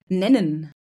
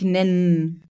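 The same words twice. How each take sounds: First: The vowel before the final n is pronounced. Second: The vowel before the final n is dropped. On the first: The speaker calls it right. "Oder nennen" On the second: The speaker calls it wrong. "Sagst du nicht nennen"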